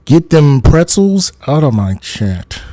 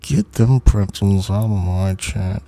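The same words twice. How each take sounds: First: Loud mock order; louder. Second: "Get them pretzels out of my chat" said through pursed lips. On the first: Streamer loudly ordering pretzel posters out of chat. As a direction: shoo them off loudly. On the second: Acted. Streamer showing mock anger through pursed lips. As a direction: push the words out through tight lips. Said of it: "my lips are like this".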